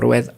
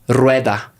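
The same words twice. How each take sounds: First: The R is trilled short and gently. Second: The R is trilled long and hard. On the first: The speaker calls it right. "es como más suave" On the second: The speaker calls it wrong. "sí sobre exageramos"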